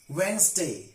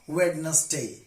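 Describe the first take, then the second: First: The d sound is silent. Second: The d sound is pronounced. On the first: The speaker calls it right. "tricky examples of the silent letter D" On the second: The speaker calls it wrong. "not Wednesday"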